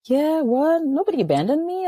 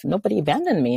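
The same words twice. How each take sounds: First: NOBODY hit higher in disbelief, "Nobody" lifted up; incredulous disbelief. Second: Said in the usual way. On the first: Retold or imitated. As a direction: throw out "Nobody abandoned me" in mock shock. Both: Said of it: "And I was like".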